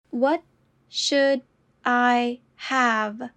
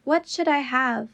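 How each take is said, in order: First: Slow, each word apart. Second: Said in the usual way. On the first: Shown as a demonstration. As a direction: say it slowly, word by word. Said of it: "repetition drill, slowed take". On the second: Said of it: "repetition drill, normal take".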